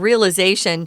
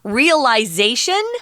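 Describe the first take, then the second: First: It is said with an American pronunciation. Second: It is said with a British pronunciation. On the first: "which is what Americans say" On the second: "is more U K, British pronunciation"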